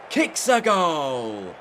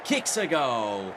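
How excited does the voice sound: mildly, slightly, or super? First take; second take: super; slightly. First: The voice sounds extremely excited and energetic. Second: The voice sounds moderately excited. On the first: "super excited" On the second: "slightly excited"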